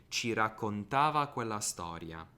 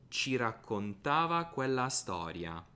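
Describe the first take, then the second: Both takes have the same delivery.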